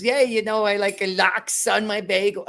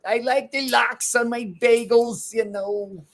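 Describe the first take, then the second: First: Higher, louder New York merchant character. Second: Higher, slower put-on Fauci voice; Anthony Fauci impression. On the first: Retold or imitated. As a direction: ham up a diamond merchant ordering bagels. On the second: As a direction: drawl it out like Fauci. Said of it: "So that was my Anthony Fauci".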